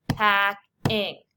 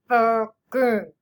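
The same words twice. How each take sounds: First: "Packing" as pack, pause, ing; split into syllables. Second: "Packing" in two loud muffled beats; whale talk. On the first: Teacher showing two syllables, clearly split. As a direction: say "Packing" in two separate, punched beats. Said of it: "Two syllables". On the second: Teacher showing two syllables in whale talk. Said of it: "Let's whale talk". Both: Shown as a demonstration.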